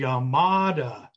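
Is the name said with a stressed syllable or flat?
stressed. One syllable is stressed, American style.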